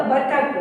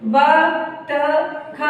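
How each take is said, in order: First: Said in the usual way. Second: बतख drawn out as ब, त, ख; sounded out. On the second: Shown as a demonstration. Teacher showing children how to join बतख, letter by letter. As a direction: say each letter of बतख separately, slowly. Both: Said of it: "इस तरह से जोड़ के पढ़ेंगे".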